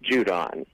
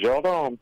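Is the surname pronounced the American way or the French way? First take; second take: American; French. First: The name is pronounced in an Americanized way. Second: The name is pronounced in a French way. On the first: This is the adapted everyday form of the name. "Americanized, it's Judon" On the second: This is the original form of the name. "it is originally en français, with Judon"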